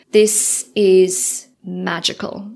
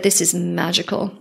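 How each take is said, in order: First: Awed slow. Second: Said in the usual way. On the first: Retold or imitated. Telling the facilitator the week felt magical.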